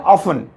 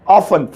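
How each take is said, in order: The two takes are said the same way.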